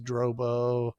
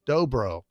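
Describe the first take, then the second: First: The first syllable has an added R sound. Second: The first syllable has no R sound. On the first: The speaker calls it wrong. "I say Dro. I put an R in there" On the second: The speaker calls it right. "it's D O B R O"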